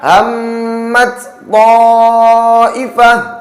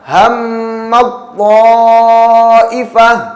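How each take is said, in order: First: The t sound is pronounced separately from the next. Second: The t sound merges into the following t. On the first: The speaker calls it wrong. "Tidak lagi dibaca" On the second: The speaker calls it right. "Contoh yang kedua"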